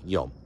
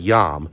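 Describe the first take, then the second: First: The vowel is a long 'o' sound. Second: The vowel is a short 'ah' sound. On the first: "I believe it's a long O sound" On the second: "I always hear it pronounced yam"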